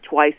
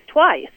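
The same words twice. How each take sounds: First: Said in the usual way. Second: "twice" pitched high for mock emphasis; emphatic repeat. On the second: Shown as a demonstration. Guest mocks governor's doubled words, emphatic repeat. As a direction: punch "twice" higher, as a mocking echo.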